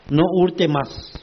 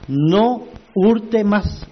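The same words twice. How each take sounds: First: Said in the usual way. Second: No hurte más, each word slow and heavy with hurte struck hardest; slow hammer blow. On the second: Shown as a demonstration. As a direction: drive No hurte más home like a hammer stroke, very slowly. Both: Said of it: "un golpe exacto".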